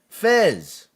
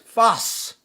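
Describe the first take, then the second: First: The name is said as fez, ending in z. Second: The name is said as fas, ending in s. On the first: The speaker calls it wrong. "they pronouncing it wrong. We don't say Fez" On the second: The speaker calls it right. "It's Fas al Maghribi"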